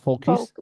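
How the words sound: The word is pronounced the French way. The speaker calls it wrong. "It's not focus uh, en français"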